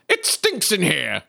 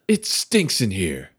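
First: It is said in a plain voice. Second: It is said in a put-on sexy voice.

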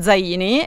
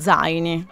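First: The stress is on the second syllable. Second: The stress is on the first syllable. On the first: The speaker calls it wrong. "io l'ho sempre chiamata Zaini" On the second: The speaker calls it right. "l'accento cade sulla A"

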